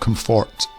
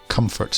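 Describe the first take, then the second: First: The stress is on the second syllable. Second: The stress is on the first syllable. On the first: The speaker calls it wrong. "not comfort" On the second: The speaker calls it right. "the emphasis should be at the start of the word"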